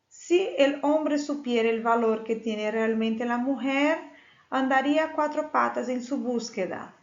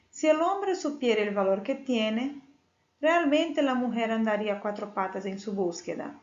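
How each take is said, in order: First: There is a pause after 'mujer'. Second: There is a pause after 'tiene'.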